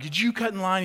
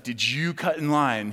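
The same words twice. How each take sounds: First: Higher mock yell at the line cutter; retold scolding shout, light; mock scream. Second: Stern agent. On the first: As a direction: play the agent scolding, pitched up. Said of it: "screaming at him and being like". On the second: Retold or imitated. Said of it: "She's like".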